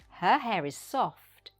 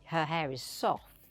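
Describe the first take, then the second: First: The T at the end of soft is pronounced. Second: The T at the end of soft is dropped. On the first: The speaker calls it right. "say the T sound" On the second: The speaker calls it wrong. "Don't say"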